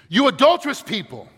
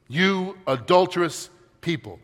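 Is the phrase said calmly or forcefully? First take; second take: forcefully; calmly. First: It is said forcefully, as an exclamation. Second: It is said in a calm reading voice.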